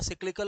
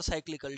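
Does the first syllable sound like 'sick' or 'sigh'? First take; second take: sick; sigh. First: The first syllable has a short 'i' vowel. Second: The first syllable has a long 'ai' vowel. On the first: "यहां पर दोनों pronunciation सही है ना" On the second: "यहां पर दोनों प्रोनाउंसिएशन सही है ना"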